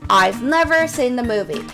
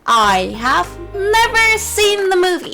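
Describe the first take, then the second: First: 'I have' is shortened to one syllable 'I've'. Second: 'I have' is said as two full words.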